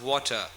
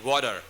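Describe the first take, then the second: First: The T is pronounced as a clear T sound. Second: The T is softened into a D sound. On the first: The speaker calls it right. "That's British" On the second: The speaker calls it wrong. "it sounds like a D, water. That's American"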